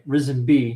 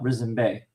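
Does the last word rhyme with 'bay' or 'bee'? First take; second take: bee; bay. First: The last word is said like 'bee'. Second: The last word is said like 'bay'. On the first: The speaker calls it right. "they pronounce it B" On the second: The speaker calls it wrong. "not Risen Bay"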